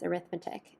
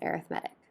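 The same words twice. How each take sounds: First: The stress falls on the second syllable. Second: The stress falls on the third syllable. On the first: The word names the branch of mathematics. "when we use this word as a noun, that would be pronounced as arithmetic" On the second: The word describes a kind of sequence. "If we're using it as an adjective to describe this sequence, we say it as arithmetic"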